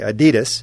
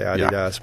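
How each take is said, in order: First: The name is said the American way. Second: The name is said the European way. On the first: "but we say Adidas" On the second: "if you're in Europe, you'd say Adidas"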